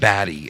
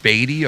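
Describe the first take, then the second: First: The first vowel sounds like the one in 'bat'. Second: The first vowel sounds like the one in 'beat'. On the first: The speaker calls it wrong. "It's not Batty" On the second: The speaker calls it right. "They say it like Beatty or something like that"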